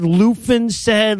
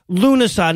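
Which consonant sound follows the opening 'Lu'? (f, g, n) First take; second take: f; n. First: The opening 'Lu' is followed by an f sound. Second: The opening 'Lu' runs straight into an n sound. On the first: The speaker calls it wrong. "ways I've heard people murder the word" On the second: The speaker calls it right. "it's pronounced Lunasa"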